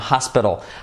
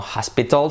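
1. Se pronuncia con sonidos ingleses. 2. Se pronuncia con sonidos españoles. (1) "sino hospital" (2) "no hospital"

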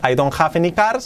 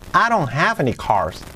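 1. La frase se dice de forma plana, sin exagerar. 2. La frase se dice con una entonación exagerada y animada. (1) "Hemos pasado de ese I don't have any cars" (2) "exagerando un poquito"

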